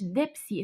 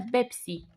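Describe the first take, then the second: First: The word begins with a d sound. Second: The word begins with a b sound. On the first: The speaker calls it wrong. "لا مش دبسي" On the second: The speaker calls it right. "اسمها بيبسي"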